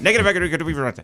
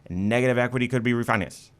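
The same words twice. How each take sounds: First: It is said quickly, like a commercial. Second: It is said at a normal, unhurried pace.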